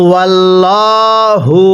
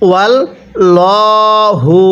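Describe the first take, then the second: No difference in how they are said.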